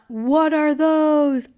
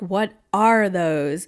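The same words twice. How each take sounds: First: It is said as an exaggerated meme impression. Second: It is said plainly, like ordinary speech.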